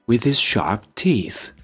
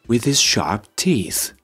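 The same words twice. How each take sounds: Both takes have the same delivery.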